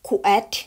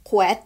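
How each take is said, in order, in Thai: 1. สระพูดช้าๆ แยกเป็นพยางค์ๆ 2. สระพูดเร็วๆ รวมกันเป็นพยางค์เดียว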